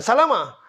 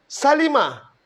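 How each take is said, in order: First: Salama with a in the middle, wrong; wrong form. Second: Salima with i in the middle, raised; clear, high Salima; correct form. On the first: Teacher warns against salama. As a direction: salama as the mistake. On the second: Teacher models the correct Salima. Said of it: "Jangan salama". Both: Shown as a demonstration.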